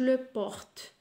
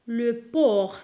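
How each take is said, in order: First: A final T sound is pronounced. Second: The final T is silent. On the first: The speaker calls it wrong. "ما نقولوش" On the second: The speaker calls it right. "la lettre muette T"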